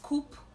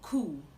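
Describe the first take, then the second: First: The word ends with a clear P sound. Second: The word ends without any P sound. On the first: The speaker calls it wrong. "The P in this word is silent. So it's not coop" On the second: The speaker calls it right. "The P in this word is silent. ... it is cool"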